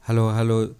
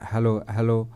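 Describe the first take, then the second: First: The high treble hiss is boosted and sharp. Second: The high treble hiss is turned down, softer. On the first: "ये मैंने हाइस बढ़ाई तो आप देखिए" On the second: "अब कम हो गया"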